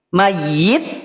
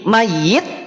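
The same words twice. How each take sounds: The two takes are said the same way.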